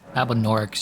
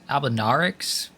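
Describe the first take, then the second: First: The middle syllable sounds like 'nor'. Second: The middle syllable sounds like 'nar'. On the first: The speaker calls it right. "is how you say it" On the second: The speaker calls it wrong. "Like I'm fucking Australian or whatever"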